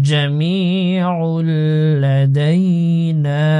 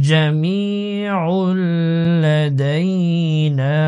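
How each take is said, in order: No difference in how they are said.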